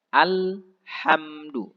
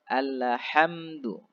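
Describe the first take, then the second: First: The l is held still without a bounce. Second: The l is released with a bouncing echo. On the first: The speaker calls it right. "Jelas kita matikan dengan sempurna huruf lam ini" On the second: The speaker calls it wrong. "Jangan dibaca alhamdu. Itu sangat fatal"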